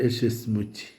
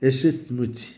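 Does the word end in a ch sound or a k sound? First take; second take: ch sound; ch sound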